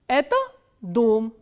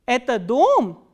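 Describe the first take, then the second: First: The pitch falls on the last stressed syllable. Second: The pitch does not fall on the last syllable. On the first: It states a fact. "the pitch normally falls towards the last stressed syllable" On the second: It asks whether it is so. "this is an interrogative sentence without any interrogative word"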